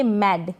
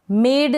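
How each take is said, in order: First: मैड with short open "ae", as in "mad"; correct pronunciation. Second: मेड with long "ay", like "made"; wrong pronunciation. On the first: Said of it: "नहीं पढ़ेंगे मैड". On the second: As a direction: say मेड with a closed e vowel. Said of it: "नहीं पढ़ेंगे". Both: Shown as a demonstration.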